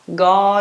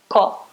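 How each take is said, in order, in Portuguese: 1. A consoante do meio é um G sonoro. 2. A consoante do meio é um K surdo. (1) "o K vai virar o quê? G" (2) "Quase isso, né?"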